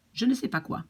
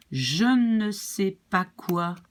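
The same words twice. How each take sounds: First: "Je ne sais pas quoi" at speed, higher; quicker French model. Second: Slow "Je ne sais pas quoi" with ne stressed; slow French model. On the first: Teacher repeating the French sentence at speed. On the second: Teacher modelling the full French sentence. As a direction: lay each word down slowly. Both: Shown as a demonstration. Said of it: "it becomes quoi".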